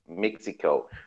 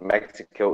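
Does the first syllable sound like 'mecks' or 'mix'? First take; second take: mix; mecks. First: The first syllable sounds like 'mix'. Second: The first syllable sounds like 'mecks'. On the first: The speaker calls it right. "because they're mixing the best drinks down there" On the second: The speaker calls it wrong. "you pronounced um, the country wrong"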